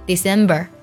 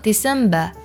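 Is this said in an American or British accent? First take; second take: American; British. First: American accent, with r-colouring at the end. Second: British accent, with no r-colouring at the end. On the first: "美式发音读作" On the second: "英式发音没有儿化音，读作"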